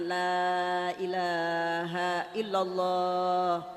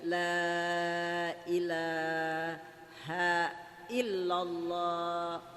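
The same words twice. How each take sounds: First: It is said fast, run together. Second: It is said slowly, then a pause.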